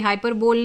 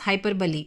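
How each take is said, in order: First: The word ends in a single 'bole' syllable. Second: The word ends in 'bolee', with an extra syllable. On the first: The speaker calls it wrong. "ये हाइपरबोल नहीं होता है" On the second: The speaker calls it right. "This is pronounced as हाइपरबली"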